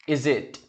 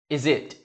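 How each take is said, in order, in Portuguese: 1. O som do s liga-se à palavra seguinte. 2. O som do s liga-se à palavra seguinte.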